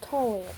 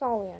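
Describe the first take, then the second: First: The name begins with a plain t sound. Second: The name begins with a th sound. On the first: The speaker calls it wrong. "not Talia" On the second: The speaker calls it right. "it is pronounced Thalia"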